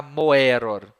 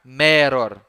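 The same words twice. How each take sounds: First: MOEROR with audible O before E; O and E separate. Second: MEROR starting ME, no O heard; single E sound. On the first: Teacher showing what not to say, O and E separate. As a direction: wrongly sound both vowels, mo-E-ror. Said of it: "Você não vai pronunciar". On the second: Teacher giving the correct form, single E sound. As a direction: say meror with the vowels merged as open E. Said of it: "Você vai pronunciar meror". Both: Shown as a demonstration.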